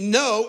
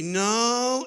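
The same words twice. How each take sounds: First: It is said in a short, dismissive way. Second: It is said in a doubtful, hesitant tone. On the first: A casual refusal. "no as in uh-uh" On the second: Mild disagreement. "no as in, I don't think so"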